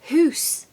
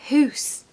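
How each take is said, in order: First: The vowel is an 'oo' sound. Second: The same.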